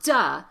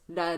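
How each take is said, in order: First: The D is a full, heavy stop. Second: The D is a very light tap. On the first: The speaker calls it wrong. "It's not duh" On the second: The speaker calls it right. "the T is pronounced as a very light D"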